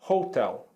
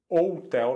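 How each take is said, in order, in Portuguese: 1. A palavra começa com um som de h audível. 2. A palavra começa com vogal, sem som de h. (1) "nós falamos hotel" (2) "Nós não falamos hotel"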